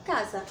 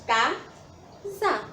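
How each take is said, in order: First: Said in the usual way. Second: "casa" slowly split into ca-sa; syllable by syllable. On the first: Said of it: "que formam a palavra casa". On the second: Shown as a demonstration. Teacher shows the syllables forming a word, saying "casa" as two separate beats. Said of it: "as sílabas que formam a palavra".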